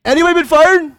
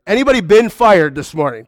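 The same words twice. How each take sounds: First: Calling out to the room. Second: Said in the usual way. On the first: Shown as a demonstration.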